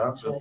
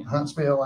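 First: Said in the usual way. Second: "Huntsville" with a full "veel" ending; Southern pronunciation. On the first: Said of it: "instead of Huntsville". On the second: Shown as a demonstration. Alabama native showing a town name, "Huntsville" ending "-veel". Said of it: "'cause you go to Huntsville".

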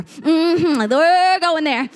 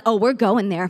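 First: Higher, drawn-out revved-up declaration; rising shout. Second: Said in the usual way. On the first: Acted. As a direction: let the excitement build as you stretch it. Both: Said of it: "the shout rises up in you".

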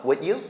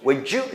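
First: "Would you" with D stopped before a clean you; unlinked, rising "Would you?"; cut between words. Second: "Would you" run together as wou-joo; rising, linked "Would you?". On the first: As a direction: stop on "Would", then lift "you". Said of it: "딱 끊어서". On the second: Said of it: "이렇게 해서 연음하는". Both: Shown as a demonstration.

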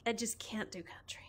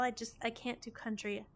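First: Whispered guilty confession. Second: Said in the usual way. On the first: Real, not acted. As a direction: whisper it like a secret. Whispered confession about country music.

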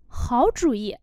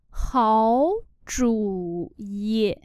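First: Said in the usual way. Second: Háo chủ ý read slowly; slow demo. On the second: Shown as a demonstration. (đọc chậm Háo chủ ý) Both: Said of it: "Quy tắc biến điệu của thanh ba".

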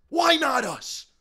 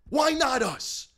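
Both takes have the same delivery.

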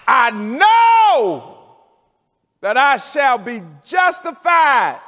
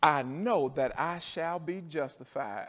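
First: High, loud preacher's cry; full-voiced shout. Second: Said in the usual way. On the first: Preacher shouting Job's words to the congregation, full-voiced cry. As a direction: shout the promise out to the church.

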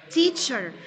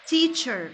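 Both takes have the same delivery.

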